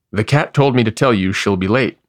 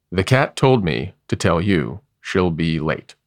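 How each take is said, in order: First: Talking through a mouthful; words round a bite of dandelions; mouth full. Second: Slower, patient repetition; slow repeat. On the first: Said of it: "through a mouthful of dandelions". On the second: Horse repeats the cat's message to the bear, slowly. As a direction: spell the message out again slowly. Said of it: "repeated the horse". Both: A narrator's reading.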